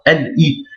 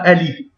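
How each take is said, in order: First: The two sounds are said separately. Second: The two sounds are linked together. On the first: The speaker calls it right. "On sépare" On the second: The speaker calls it wrong. "On ne dit pas"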